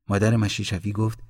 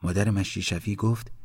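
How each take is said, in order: Both takes have the same delivery.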